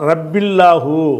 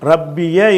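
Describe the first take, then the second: First: Rabbi links straight into llahu with no extra vowel. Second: Rabbi ends in ya with an a vowel. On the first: The speaker calls it wrong. "ரப்பில்லாஹுன்னு சொல்லலை" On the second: The speaker calls it right. "ரப்பிய என்று அல்லாஹ் அதை பயன்படுத்துகிறான்"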